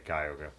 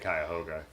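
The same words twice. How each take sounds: First: Several syllables of the word are dropped. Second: Every syllable of the word is pronounced clearly. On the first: It is everyday local speech. "in normal conversation, we'd say Cuyahoga" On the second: The speaker is choosing words carefully. "if you're thinking about it, you would say Cuyahoga"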